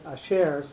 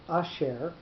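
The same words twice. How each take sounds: First: The stress is on the second syllable. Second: The stress is on the first syllable. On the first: The speaker calls it right. "I would pronounce it asher" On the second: The speaker calls it wrong. "I would not pronounce this word asher"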